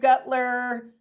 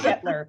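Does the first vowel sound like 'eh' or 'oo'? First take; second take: oo; eh. First: The first vowel sounds like 'oo'. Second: The first vowel sounds like 'eh'. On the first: The speaker calls it wrong. "everybody says it wrong. Um, you know, I've been called" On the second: The speaker calls it right. "the U is silent"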